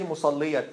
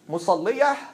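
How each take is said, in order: First: The word ends with a clear t sound. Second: The word ends with a soft h sound.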